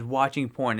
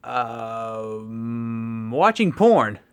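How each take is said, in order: First: Flat, offhand mock answer, no fuss at all; nonchalant. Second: A hesitant um, then a sudden loud blurt of the answer. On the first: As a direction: say it like it's nothing. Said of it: "Just very nonchalantly". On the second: Retold or imitated. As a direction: blurt it out loud after a pause. Ned's first quoted answer.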